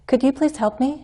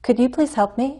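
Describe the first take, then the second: Both takes have the same delivery.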